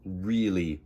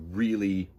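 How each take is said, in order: Both takes have the same delivery.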